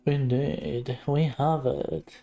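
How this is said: It is said flatly, with a bored tone. The speaker does not care about the topic. "he sounds so bored about it"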